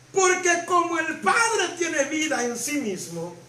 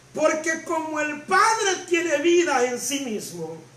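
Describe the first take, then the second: No difference in how they are said.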